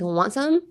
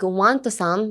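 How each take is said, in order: First: The words are slurred together into one. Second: Each word is said separately and clearly. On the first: The speaker calls it right. "Literally slur your words like" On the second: The speaker calls it wrong. "Don't be like"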